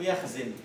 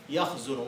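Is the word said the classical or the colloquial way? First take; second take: colloquial; classical. First: The middle root vowel is the everyday spoken one. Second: The middle root vowel is the classical one. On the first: The speaker calls it wrong. "تقولون في كلامكم يخزن" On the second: The speaker calls it right. "لا هي يخزن"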